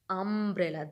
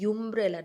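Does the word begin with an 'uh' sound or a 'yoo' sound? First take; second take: uh; yoo. First: The word begins with an 'uh' sound. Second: The word begins with a 'yoo' sound. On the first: The speaker calls it right. "this is umbrella, um, a aa raha hai na" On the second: The speaker calls it wrong. "I am not saying umbrella, umbrella. No, this is not the correct pronunciation"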